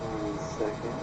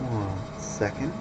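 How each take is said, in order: Both takes have the same delivery.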